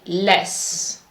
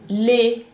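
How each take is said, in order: First: The final S is sounded. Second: The final S is silent. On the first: The speaker calls it wrong. "You cannot say less" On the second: The speaker calls it right. "of E and S is pronounced E"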